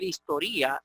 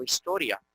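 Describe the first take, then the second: First: Historia as histo-RÍ-a, stress on RI; broken diphthong. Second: Said in the usual way. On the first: Shown as a demonstration. Teacher reading it as if accented, histo-RÍ-a. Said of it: "habría que leer historia". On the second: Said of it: "y no historia".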